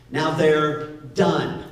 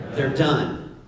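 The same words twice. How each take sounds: First: Done drawn out slowly and weighted; stress on done. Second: Said in the usual way. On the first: Shown as a demonstration. Pastor stressing done to the congregation. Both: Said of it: "Everybody say they're done".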